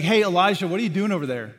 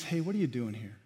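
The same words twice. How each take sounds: First: Loud, detached call from afar; distant call. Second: Softer, near, caring question; gentle and close. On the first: God calling out to his prophet from far off, loudly. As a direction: shout across at him, arms folded. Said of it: "The picture is not God distant somewhere". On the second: God sitting with Elijah in the cave, gently. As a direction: ask it quietly, right beside him. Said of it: "You know what the picture is?". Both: Pretend.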